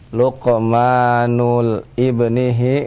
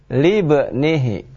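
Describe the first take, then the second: First: The next word starts separately, not linked by l. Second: The next word is linked and starts with l. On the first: The speaker calls it wrong. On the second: The speaker calls it right.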